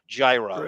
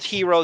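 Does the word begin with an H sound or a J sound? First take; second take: J sound; H sound. First: The word begins with a J sound. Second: The word begins with an H sound. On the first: "phonetically pronounce it like an American" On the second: "If it's called hero, don't use a fucking G"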